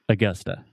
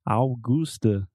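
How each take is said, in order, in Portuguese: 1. As vogais átonas são reduzidas para schwa. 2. As vogais átonas são plenas, não reduzidas. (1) "So we're talking about the schwa sound" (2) "most Brazilians will see this word and they want to say Augusta, like Augusto"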